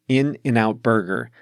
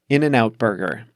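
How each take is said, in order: First: The name is said slowly. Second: The name is said fast. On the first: The speaker calls it wrong. "I can't say it slowly" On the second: The speaker calls it right. "That's how you say it fast"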